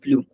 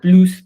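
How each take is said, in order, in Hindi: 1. अंतिम s ध्वनि मौन है। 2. अंतिम s ध्वनि का उच्चारण होता है। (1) "तो वी डोंट से प्लूस, वी से नो प्लू" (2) "वन इज प्लूस when it means actually more"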